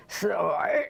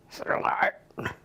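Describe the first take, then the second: First: Said in the usual way. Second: "Silly" whispered, no voice. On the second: Acted. Poem dialogue, repeated word.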